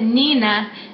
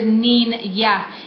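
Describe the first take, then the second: First: The middle consonant is a plain N sound. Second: The middle consonant is an NY sound, as in onion. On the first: The speaker calls it wrong. "the word isn't Nina" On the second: The speaker calls it right. "also pronounced with the y sound. If you would think of like onion"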